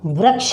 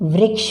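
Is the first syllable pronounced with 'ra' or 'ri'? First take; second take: ra; ri. First: The first syllable is said with a 'ra' sound. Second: The first syllable is said with a 'ri' sound. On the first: The speaker calls it wrong. "वृक्ष नहीं बोलेंगे" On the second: The speaker calls it right. "वृक्ष बोलेंगे"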